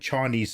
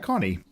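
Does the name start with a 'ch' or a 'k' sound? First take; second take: ch; k. First: The name begins with a soft ch sound. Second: The name begins with a hard k sound. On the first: The speaker calls it right. "I knew it was Chani" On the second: The speaker calls it wrong. "a hard K sound instead of a Ch"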